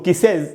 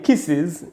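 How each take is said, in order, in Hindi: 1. बहुवचन का अंत 'iz' नहीं बोला जाता। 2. बहुवचन का अंत 'iz' बोला जाता है। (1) "इसको किसेज नहीं पढ़ना चाहिए" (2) "तो इसको पढ़ेंगे किसेज"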